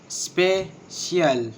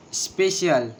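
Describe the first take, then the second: First: Special drawn out as spe-cial, first beat stressed; slower, syllables apart. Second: Said in the usual way. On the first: Shown as a demonstration. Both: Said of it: "And the two syllables".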